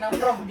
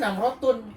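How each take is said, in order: First: The ending is cut off, ending in -h. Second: The full ending -tun is pronounced. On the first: This is how Arabs actually read it. "tapi dibacanya Namroh dia" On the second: This is how the word is written. "Biasa tulisannya Namrotun"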